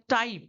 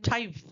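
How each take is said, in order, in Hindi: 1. t सादा है, उसमें हवा का झोंका नहीं है। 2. t साँस वाला है, उसमें हवा का झोंका निकलता है। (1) "हम लोग बोलते हैं" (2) "वो लोग बोलेंगे टाइप, क्योंकि ... टी ठा हो जाता है"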